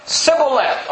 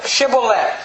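First: Sibboleth with a plain S instead of SH; mispronunciation. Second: Shibboleth with a clear SH at the start; correct pronunciation. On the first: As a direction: say "Sibboleth" with a hissed S at the start. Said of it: "their mouth can't say certain sounds". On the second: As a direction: say "Shibboleth" with a hushing first sound. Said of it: "Say now". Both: Acted.

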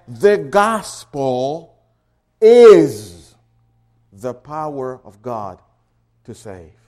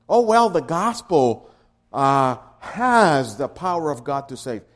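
First: "is" very loud, set apart by pauses; slow build, then thunder the word "is"; stress on IS. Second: "has" leaned on in a mistaken reading; voiced objection with "has" stressed. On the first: Shown as a demonstration. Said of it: "now you're making a real emphasis". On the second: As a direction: put the weight on "has". Mock wrong reading, stressing has.

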